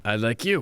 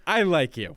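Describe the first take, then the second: First: Lower, "you" stressed with a rise; "you" rising, the rest settled low. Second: I stressed, falling at the end; "I" said firmly, the rest light. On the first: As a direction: lift the word "you" at the end. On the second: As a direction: lean on the word "I". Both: Shown as a demonstration.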